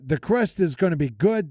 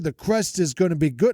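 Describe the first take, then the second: First: It is said in a thick Jersey-Italian accent. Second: It is said in the speaker's ordinary accent.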